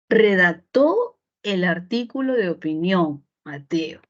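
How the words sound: The pitch falls at the end, like a statement. It states that Mateo wrote the article. "usted puede convertirlo en una afirmación"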